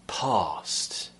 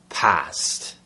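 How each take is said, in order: First: The vowel is long and made far back. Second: The vowel is short and made at the front. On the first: "It would be the second option" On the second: "sometimes you'll hear someone say"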